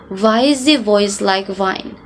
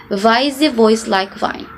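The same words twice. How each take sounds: First: It is said in a German accent, W as V. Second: It is said in a German accent, W as V.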